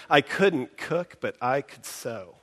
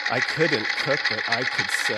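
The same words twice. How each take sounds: First: Slow, stress on "cook" and "sew"; a steady iambic pulse on "couldn't cook" and "could sew"; iambic reading. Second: "I couldn't cook, but I could sew" in a mechanical da-DA; even machine beat on "cook" and "sew"; sewing-machine rhythm. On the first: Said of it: "You can hear it in the line". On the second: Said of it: "what else produces a kind of iambic rhythm". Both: Shown as a demonstration.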